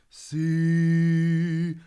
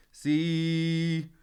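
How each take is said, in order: First: Dropped larynx. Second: "See" sung bright and higher with the larynx held high. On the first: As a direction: drop the larynx for depth on "See". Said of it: "letting that larynx drop down to give a bit of depth". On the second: Coach shows the singer's high bright way to sing See. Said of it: "it's more". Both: Shown as a demonstration.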